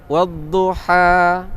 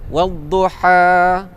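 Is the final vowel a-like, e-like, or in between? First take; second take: in between; in between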